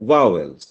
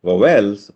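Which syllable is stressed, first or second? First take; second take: first; second. First: The stress is on the first syllable. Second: The stress is on the second syllable. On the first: The speaker calls it right. "the stress is on the first syllable" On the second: The speaker calls it wrong. "Suppose the stress was on the second syllable"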